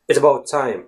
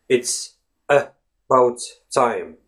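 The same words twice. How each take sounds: First: It is said fast. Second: It is said slowly.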